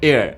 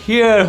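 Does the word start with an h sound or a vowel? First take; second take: vowel; h sound. First: The word begins with a vowel sound. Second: The word begins with an h sound. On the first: The speaker calls it right. "But এটা আসলে এয়ার" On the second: The speaker calls it wrong. "এটা শুনে মনে হচ্ছে যে হেয়ার হওয়ার কথা"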